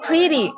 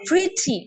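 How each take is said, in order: First: The t is soft and flapped, like a quick d. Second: The t is crisp and clearly released. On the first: "American film देखेंगे तो उसमें बोला जाएगा" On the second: "The sound must be like pretty in the British films"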